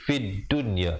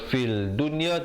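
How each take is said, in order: First: The L merges into a doubled D sound. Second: An L sound is heard before the D. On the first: The speaker calls it right. "lamnya tidak dibunyikan" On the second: The speaker calls it wrong. "Jangan baca"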